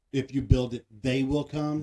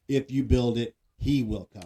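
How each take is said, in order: First: Contrasting stress on "they". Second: Contrasting stress on "he". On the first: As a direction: quote it firmly, leaning on "they". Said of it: "Not, not". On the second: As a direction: quote it firmly and lower, leaning on "he". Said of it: "I always remember it as". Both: Shown as a demonstration.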